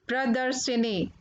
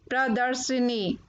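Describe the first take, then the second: No difference in how they are said.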